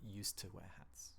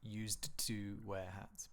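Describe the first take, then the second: First: Used to is linked and reduced, like useta. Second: Used to is said as two separate, careful words. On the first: The speaker calls it right. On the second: The speaker calls it wrong.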